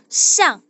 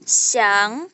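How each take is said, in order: First: The syllable is said in the fourth tone. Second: The syllable is said in the second tone. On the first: "Nada keempat itu siang" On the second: "Nada dua"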